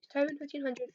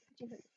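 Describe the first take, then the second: First: Said in the usual way. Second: Fifteen hundred murmured very softly to himself; half-voiced while typing it in; muttered under breath. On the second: Real, not acted. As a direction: drop to a near-silent mumble.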